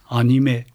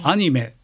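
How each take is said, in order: First: The pitch stays level with no fall. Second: The pitch rises high and then falls.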